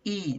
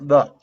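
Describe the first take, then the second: First: The vowel is a long 'ee' sound. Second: The vowel is a short 'uh' sound. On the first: The speaker calls it right. "E here is pronounced like E" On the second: The speaker calls it wrong. "not like the"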